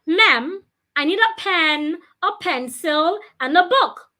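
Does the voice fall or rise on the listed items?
rise. The voice rises on the listed items. The speaker calls it right. "Your voice should also go up when you're listing things"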